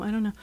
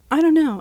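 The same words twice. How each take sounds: First: Much softer, trailing under the breath; muttered. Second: Said in the usual way. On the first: Real, not acted. Overwhelmed podcaster mutters to himself, very soft. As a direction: mumble it to yourself, giving up. Repeated, dropped to near silence.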